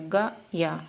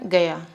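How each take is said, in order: First: It is split in two with a long first vowel. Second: It is said quickly as one unit. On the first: The speaker calls it wrong. "गा या नहीं बोल रहा" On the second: The speaker calls it right. "ये जल्दी होता है ना"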